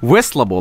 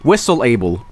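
First: The two parts run together as one word. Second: The two parts are said as separate words. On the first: "That's how you say it" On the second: "Say whistle and then say able"

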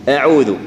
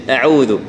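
The two takes are said the same way.

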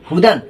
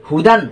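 No difference in how they are said.

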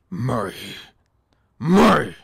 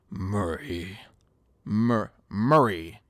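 First: The name is said in an aggressive voice. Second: The name is said in a less aggressive voice.

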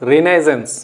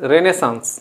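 First: The second syllable sounds like 'nai', ending 'zens'. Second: The second syllable sounds like 'neh', ending 'saans'. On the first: The speaker calls it wrong. "That is not రినైజెన్స్" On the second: The speaker calls it right. "That is రెనెసాన్స్"

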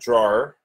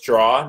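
First: The word is said as two syllables, 'draw-er'. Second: The word is said as one syllable, 'draw'. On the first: The speaker calls it right. "not drawer" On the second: The speaker calls it wrong. "I thought it was draw"

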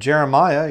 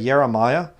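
First: The name begins with a J sound. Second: The name begins with a Y sound. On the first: "Instead of Jeremiah" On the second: "you say Jeremiah"

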